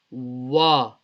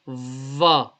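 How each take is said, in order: First: It starts with a w sound, lips rounded. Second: It starts with a v sound, lips unrounded. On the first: The speaker calls it right. "We need to round the lips" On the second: The speaker calls it wrong. "we don't read it as va. It's not va"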